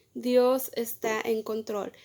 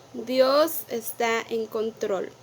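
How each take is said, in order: Both takes have the same delivery.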